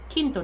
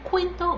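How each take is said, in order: First: The word begins with a plain k sound. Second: The word begins with a kw sound. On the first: The speaker calls it right. "The Q in Spanish sounds like a K" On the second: The speaker calls it wrong. "not quinto"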